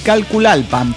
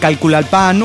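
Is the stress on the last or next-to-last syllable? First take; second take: next-to-last; last. First: The stress is on the next-to-last syllable. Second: The stress is on the last syllable. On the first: The speaker calls it right. "debes acentuar la penúltima sílaba" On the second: The speaker calls it wrong. "de forma natural te sale la acentuación en la última"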